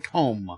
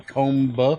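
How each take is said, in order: First: The final B sound is left silent. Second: The final B sound is pronounced. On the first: The speaker calls it right. "you say comb" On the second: The speaker calls it wrong. "You don't say comb"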